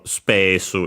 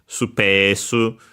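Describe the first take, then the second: First: The first u is dropped entirely. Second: The first u is faintly heard. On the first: "or spesu even" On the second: "The first one is barely heard"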